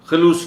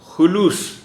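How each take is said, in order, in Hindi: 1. पहले अक्षर में u स्वर नहीं है। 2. पहले अक्षर में u स्वर है। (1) "नहीं" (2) "खे पर पेश"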